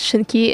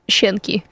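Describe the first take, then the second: First: The stress falls on the E vowel. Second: The stress does not fall on the E vowel. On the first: The speaker calls it right. "Emphasis on the E" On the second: The speaker calls it wrong. "and not Shinki. Because I've been reading it that way for 5 years"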